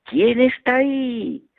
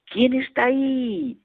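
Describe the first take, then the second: First: Slow high echo of the call; the echo returning the child's call; echo reply. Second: High, slow call into the mountains; child calling out who's there; shouted question. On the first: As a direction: answer back like a mountain echo. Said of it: "recibí una respuesta". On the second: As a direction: call out to the hills. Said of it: "grité". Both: Retold or imitated.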